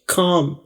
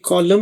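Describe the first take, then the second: First: The L sound is left silent in the word. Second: The L sound is pronounced in the word. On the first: The speaker calls it right. "एल silent होगा" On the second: The speaker calls it wrong. "अब ये कॉलम नहीं पढ़ा जाएगा"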